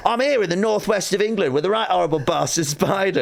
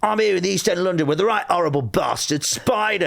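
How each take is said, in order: First: Put-on high, brisk presenter link in Northwest English accent; own Northwest accent. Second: High, punchy Cockney hard-man piece to camera; mock East End presenter introducing a thug; Danny Dyer. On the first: Comedian replaying his retake to camera, own Northwest accent. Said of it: "I think you do your own accent". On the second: Imitating an actor doing his link to camera, Cockney hard man. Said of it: "He goes".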